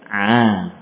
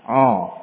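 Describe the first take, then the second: First: The vowel sounds open, like a. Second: The vowel sounds rounded, like o. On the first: The speaker calls it right. "Yang betul bagaimana?" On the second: The speaker calls it wrong. "coba tirukan suara ini, suara yang salah"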